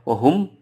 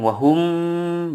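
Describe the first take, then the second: First: The final m sound is cut very short. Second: The final m sound is held too long. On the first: "tidak boleh" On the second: "terlalu panjang"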